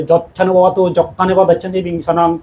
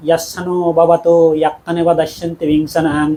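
First: যচ্ছানো said with a jo sound instead of ya; imitating the wrong local pronunciation. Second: ইয়াচ্ছানো said with a clear ya sound at the start, carefully; correct Pali pronunciation. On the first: Monk mimicking how old villagers mispronounce যচ্ছানো with jo. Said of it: "সে বুড়ো একো বান্ধে লো". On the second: Shown as a demonstration. Monk showing lay listeners the right Pali sound, ইয়াচ্ছানো with a clear ya. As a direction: give ইয়াচ্ছানো its proper ya opening, not jo. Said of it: "যাকে পালে দি উচ্চারণ করুন".

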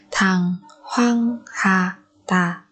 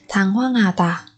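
First: Very slow "Thằng hoang hà tà"; syllable by syllable. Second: Said in the usual way. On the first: Shown as a demonstration. Teacher modelling a word for learners, very slowly. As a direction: pause after each syllable of "Thằng hoang hà tà".

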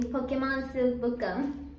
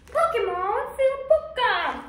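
First: Said in the usual way. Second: High, loud hype announcement; excited announcer shout. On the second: Shown as a demonstration. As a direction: yell the name like a game-show host. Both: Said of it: "that was weird".

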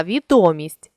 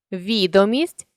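First: Відомість with ДО stressed; stress on second syllable. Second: Відомість with ВІ stressed; stress on first syllable. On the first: Teacher means popularity, відомість stressed on ДО. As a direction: lean on ДО inside відомість. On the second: Teacher means a list, відомість stressed on ВІ. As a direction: lean on the opening ВІ of відомість. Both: Shown as a demonstration. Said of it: "залежно від наголосу".

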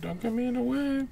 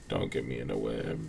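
First: Much higher and soft; "Don't get me in the web" said high and soft; high mock voice. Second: Much lower and softer; "Don't get me in the web" said low and soft; low mock voice. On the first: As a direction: squeak it up in a high put-on voice. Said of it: "repeated line, high take". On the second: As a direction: drop into a low, quiet put-on voice. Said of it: "repeated line, low then high".

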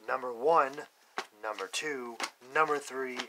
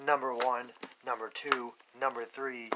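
No difference in how they are said.

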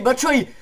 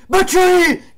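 First: Rising, louder name call; excited call. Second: High, loud screamed name. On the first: Name called as shot builds. (chiamata eccitata) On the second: Name screamed as shot goes in. (nome urlato) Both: Real, not acted.

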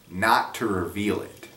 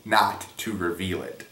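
First: Not drawn out with a rise; "not" stretched and lifted; stress on not. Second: "not" hit hard, falling; firm falling stress on "not". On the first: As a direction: lean on "not". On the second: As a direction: punch the word "not". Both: Shown as a demonstration. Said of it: "Emphasis mine".

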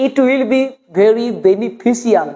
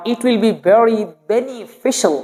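First: "beneficial" said as beni-fi-si-al; slow sentence with "beneficial" ending si-al; spelled-out pronunciation. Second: "beneficial" said as beni-fi-shal; slow sentence with "beneficial" ending shal; correct pronunciation. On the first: Teacher asking which is clearer, "beneficial" as beni-fi-si-al. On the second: Teacher asking which is clearer, "beneficial" as beni-fi-shal. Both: Shown as a demonstration. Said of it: "কোনটা উচ্চারণ করার মধ্যে".

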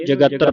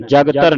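First: ਜਗਤਰ as ja-gat-tar, vowel after the g; correct reading demo. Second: ਜਗਤਰ as jag-tar, no vowel after g; wrong reading demo. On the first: Teacher shows students how to read it, ਜਗਤਰ as jagattar. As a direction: sound the short vowel between g and t in ਜਗਤਰ. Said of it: "ਇਹਨੂੰ ਜਗਤਰ ਪੜਨਾ ਹੈ". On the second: Teacher warns students off this reading, ਜਗਤਰ as jagtar. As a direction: run g straight into t in ਜਗਤਰ. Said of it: "ਜਗਤਰ ਨਹੀਂ ਪੜਨਾ". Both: Shown as a demonstration.

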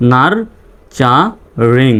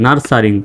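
First: Very slow "nurturing", a gap after each syllable; teacher's slow sounding-out. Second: Said in the usual way. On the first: Shown as a demonstration. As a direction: break "nurturing" into nar-cha-ring. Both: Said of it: "reading পড়ে আসি".

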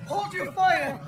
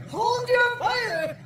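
First: Urgent command. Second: Higher, louder, slow urgent shout; frantic shout. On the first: Officer stops the attack. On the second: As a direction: scream the order to stop. Repeated order, more urgent. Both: Acted.

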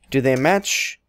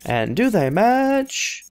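First: Said in the usual way. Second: MATCH stretched out and rising high; slow the question right down, sliding up on "match"; drawn-out question. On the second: Pretend. Repeats question, drawn out, higher.

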